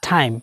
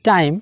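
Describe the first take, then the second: First: The t has a strong puff of air. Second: The t has no puff of air. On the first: The speaker calls it right. "টি কে আজকে থেকে আমরা ঠ বলবো" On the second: The speaker calls it wrong. "আমরা বলতাম টাইম"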